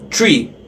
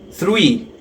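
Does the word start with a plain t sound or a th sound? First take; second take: t sound; th sound. First: The word starts with a plain t sound. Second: The word starts with a th sound. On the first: The speaker calls it wrong. "Traten de no pronunciar tree" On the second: The speaker calls it right. "sino three"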